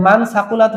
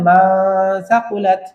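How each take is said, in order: First: Said in the usual way. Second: মা held long through the nose in place of মান; long nasal hum on মা before সাকুলাত; মা সাকুলাত with the n hidden in ghunnah; ikhfa pronunciation. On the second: Shown as a demonstration. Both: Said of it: "হয়ে যাবে".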